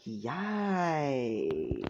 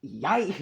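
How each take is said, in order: First: Long, stretched-out YIKES sliding down; drawn-out yikes. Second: Short, higher, startled exclamation; startled yikes. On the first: Nezu reacts to an angry Izuku, long drawn-out yikes. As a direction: draw YIKES right out, letting it fall. Retake of Nezu's startled reaction. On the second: Nezu reacts to an angry Izuku, quick startled yikes. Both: Acted.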